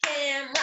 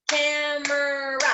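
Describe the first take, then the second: First: "Camera" as cam-ra, middle vowel dropped; two syllables. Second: "Camera" slowly as cam-er-ah, three beats; slow, three syllables. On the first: Teacher counting syllables with pupils, "Camera" in two beats as cam-ra. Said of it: "It's actually two". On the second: Teacher counting syllables with pupils, "Camera" slowly in three beats. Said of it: "If you guys did it real slow". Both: Shown as a demonstration.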